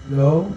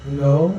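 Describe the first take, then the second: The two takes are said the same way.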